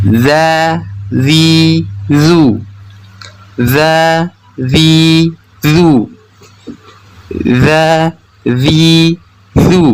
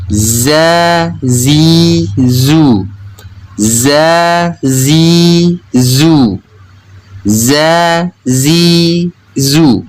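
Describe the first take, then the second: First: Za, zi, zu with TH as in "this"; drawn-out demo of Arabic dhal in "Za, zi, zu"; tongue-tip-bitten dzal. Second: Drawn-out demo of Arabic zai in "za, zi, zu"; voiced Z in "za", tongue kept behind the teeth; zai pronunciation. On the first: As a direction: lisp the Z in "Za, zi, zu", tongue between teeth. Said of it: "menggigit sedikit ujung lidahnya". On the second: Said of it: "ujung lidah yang menempel pada gigi seri bawah". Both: Shown as a demonstration.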